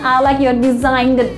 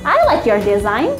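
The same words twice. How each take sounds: First: The g in design is pronounced. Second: The g in design is silent. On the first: The speaker calls it wrong. "bukan I like your design" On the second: The speaker calls it right. "G-nya itu silent. Tidak perlu diucapkan"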